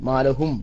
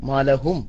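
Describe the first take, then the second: No difference in how they are said.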